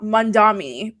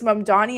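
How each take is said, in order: First: An n sound comes right after the first vowel. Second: An m sound comes right after the first vowel. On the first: The speaker calls it wrong. "and not Mandami" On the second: The speaker calls it right. "it's Mamdani"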